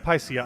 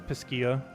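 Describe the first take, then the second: First: The name sounds like the word Pisces. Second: The name sounds like the start of pistachio. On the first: The speaker calls it right. "isn't it like Pisces?" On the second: The speaker calls it wrong. "I always say it incorrectly. I say it as Piscia. Almost like a pistachio"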